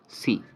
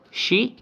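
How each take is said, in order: First: The syllable starts with an 's' sound. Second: The syllable starts with a 'sh' sound. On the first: The speaker calls it wrong. "C is uh, completely different" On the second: The speaker calls it right. "She is the right uh, pronunciation"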